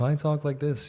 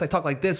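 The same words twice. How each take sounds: First: It is spoken in a deep, smooth radio voice. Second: It is spoken in a plain, ordinary voice. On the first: It is easy to listen to. The speaker calls it right. "it's it's a little bit easier to listen" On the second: It is harder to listen to. The speaker calls it wrong. "which kind of drives people crazy at home"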